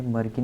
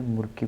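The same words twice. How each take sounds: First: First vowel of "मर्की" as a short uh. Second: First vowel of "मुर्की" as a short oo. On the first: Teacher shows students the reading to avoid, "मर्की" with an uh vowel. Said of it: "इसे मर्की नहीं पढ़ेंगे". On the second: Teacher tells students how to read it, "मुर्की" with an oo vowel. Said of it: "मुर्की पढ़ेंगे". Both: Shown as a demonstration.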